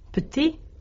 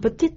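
First: The word ends without a t sound. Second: The t sound links into the next vowel. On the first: The word stands alone. "äännetään yksinään ilman lopputeetä" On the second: A vowel-initial word follows. "t kuuluu"

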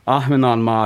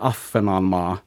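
First: The middle consonants are pronounced h plus v. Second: The middle consonant is pronounced as a long f.

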